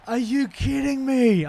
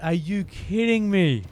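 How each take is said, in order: First: High, drawn-out shout of disbelief. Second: Loud, high, slow exasperation; shouting. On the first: Gamer to the game after a failed run, outraged shout. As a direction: yell it slowly, really outraged. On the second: Gamer after apologising for shouting, still shouting in disbelief. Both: Real, not acted. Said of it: "I'm sorry for shouting at you".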